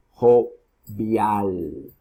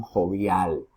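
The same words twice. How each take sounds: First: Jovial split slowly, jo-VIAL, last syllable stretched; stress on last syllable. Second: Said in the usual way. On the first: Shown as a demonstration. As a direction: draw out the final "-vial" of jovial. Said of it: "En la última sílaba". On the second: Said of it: "¿dónde está la mayor pronunciación?".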